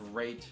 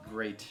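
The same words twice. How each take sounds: The two takes are said the same way.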